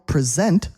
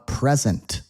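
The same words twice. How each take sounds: First: The stress is on the second syllable. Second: The stress is on the first syllable. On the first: It means showing something. "Present means you're showing something off" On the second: It means a gift. "Present is a noun"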